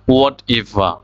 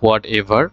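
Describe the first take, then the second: First: The final r sound is dropped. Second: The final r sound is pronounced. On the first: The speaker calls it right. "হোয়াট এভারের কারেক্টটা তাহলে কি হবে" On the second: The speaker calls it wrong. "হোয়াট এভার বলি আমরা"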